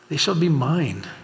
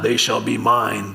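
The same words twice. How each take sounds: First: It is said warmly, with love. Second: It is said without warmth, sternly.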